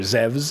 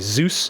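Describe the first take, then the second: First: The name is said with a V sound. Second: The name is said without a V sound.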